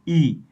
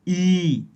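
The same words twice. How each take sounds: First: The vowel is held only briefly. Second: The vowel is held about twice as long.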